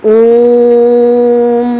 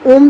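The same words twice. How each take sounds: First: The vowel is held long and drawn out. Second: The word is said short and quick.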